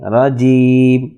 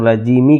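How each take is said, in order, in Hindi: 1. शब्द एक बिना स्वर वाले अंतिम व्यंजन पर खत्म होता है। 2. शब्द एक छोटी -i मात्रा पर खत्म होता है। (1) "यहाँ पर रुकेंगे तो ... पढ़ेंगे रजीम" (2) "रजीमी के बजाय"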